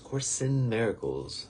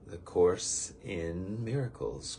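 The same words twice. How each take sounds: First: "Course in Miracles" higher and slow, "in" stressed as "sin"; run into "sin". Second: "Course in Miracles" said slowly, with "in" set apart; separated words. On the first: Speaker shows how the title sounds like sin, "in" stressed as "sin". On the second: Speaker introduces today's course by name, "Course in Miracles" slowly separated. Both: Shown as a demonstration. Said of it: "It sounds like the word sin".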